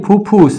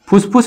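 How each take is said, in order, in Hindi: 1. पहला अक्षर दोहरी f ध्वनि पर खत्म होता है। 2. पहला अक्षर s ध्वनि पर खत्म होता है। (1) "फुसफुस नहीं फुफ्फुस" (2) "फुसफुस नहीं"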